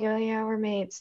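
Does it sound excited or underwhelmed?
underwhelmed. It is said in a flat, underwhelmed way.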